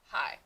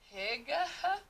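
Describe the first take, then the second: First: It is one syllable with a long I sound. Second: Every letter is sounded, including the G and H. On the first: The speaker calls it right. "I G H can also say I" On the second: The speaker calls it wrong. "if you were to say this with each of those sounds separately, it would not sound correct"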